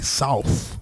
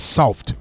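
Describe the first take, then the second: First: The final consonants are softened and blurred. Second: The final consonants are hard and crisp. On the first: "we say south" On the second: "We don't say soft"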